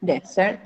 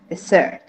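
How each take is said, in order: First: "Desert" stressed on DES; noun stress. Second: "desert" stressed on SERT; verb stress. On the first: Teacher modelling the noun for student, first-syllable stress on "Desert". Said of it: "On the first syllable". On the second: Teacher modelling the verb for student, second-syllable stress on "desert". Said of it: "On the second syllable". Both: Shown as a demonstration.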